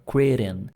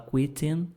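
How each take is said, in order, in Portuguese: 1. É pronunciado com sotaque inglês americano. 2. É pronunciado com sotaque inglês europeu. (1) "Aqui eu tô puxando esse, essas letras T's porque influência do americano" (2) "é só um sotaque diferente do inglês mais europeu"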